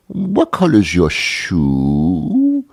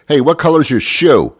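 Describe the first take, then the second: First: Put-on very slow, cooing question to a toddler; slow, sing-song talk to a small child; cutesy child-directed talk. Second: Said in the usual way. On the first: Shown as a demonstration. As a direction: make it really cute, drawing out every word. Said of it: "you make it really cute". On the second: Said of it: "You talk like that to an adult".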